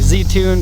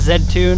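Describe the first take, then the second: First: The letter Z is said the American way. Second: The letter Z is said the Japanese way. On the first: "a lot of people will say Z-Tune because Z is how the American market" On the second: "the Japanese pronunciation is Z-Tune"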